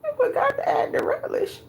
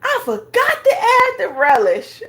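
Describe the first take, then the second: First: Whispered repeat. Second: Mock dismayed voice, higher and louder. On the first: Retold or imitated. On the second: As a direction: imitate her voiced dismay.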